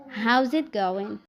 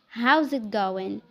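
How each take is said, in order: First: 'How is' is squeezed into one syllable. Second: 'How is' is squeezed into one syllable.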